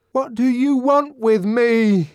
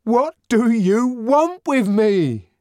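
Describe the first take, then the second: First: Anguished demand. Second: High, slow, desperate demand; anguished demand. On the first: Savage confronts grinning crowd. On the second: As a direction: plead to be left alone. Savage repeats to the crowd. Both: A narrator's reading.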